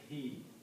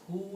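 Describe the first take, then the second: First: The pronoun is said with an 'i' vowel. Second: The pronoun is said with a 'u' vowel. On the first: "is pronounced as he in the tajweed" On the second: "this who"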